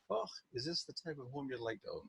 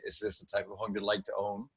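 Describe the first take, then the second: First: Soft, breathy-free Scottish granny lilt, much quieter; Mrs. Doubtfire Scottish. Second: Said in the usual way. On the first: Shown as a demonstration. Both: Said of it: "it comes out like Missus Doubtfire for me".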